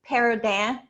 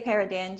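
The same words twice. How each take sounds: First: The name is said with a South Louisiana Cajun pronunciation. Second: The name is said with a general American pronunciation. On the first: This is how locals from Cajun country say it. "if you're from South Louisiana, I would we pronounce it Paradin" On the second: This is the simpler version for outsiders. "anyone else, I say Paradin"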